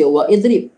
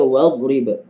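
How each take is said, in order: First: The i of idrib is pronounced separately. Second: The i is dropped, linking wa to drib. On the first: The speaker calls it wrong. "Kita tak baca wa idrib" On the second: The speaker calls it right. "kita baca wadrib"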